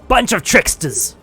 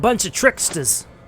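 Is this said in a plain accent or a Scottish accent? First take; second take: Scottish; plain. First: It is said in a Scottish accent. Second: It is said in a plain, unaccented voice.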